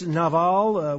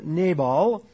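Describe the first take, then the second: First: The middle consonant is a V sound. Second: The middle consonant is a B sound. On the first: This is the likely Hebrew pronunciation. "More likely in Hebrew, it's Nabal, with the V sound as opposed to a B" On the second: This is the usual English pronunciation. "as we would tend to pronounce it in English"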